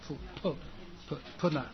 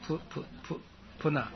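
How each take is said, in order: Both takes have the same delivery.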